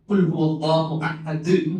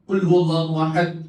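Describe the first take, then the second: First: The final d is released with a bouncing echo. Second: The final d is stopped flat, without bounce. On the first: The speaker calls it right. "തൽക്കലത്തിന്റെ അക്ഷരം" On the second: The speaker calls it wrong. "ഖുൽ ഹുവല്ലാഹു അഹദ് അല്ല"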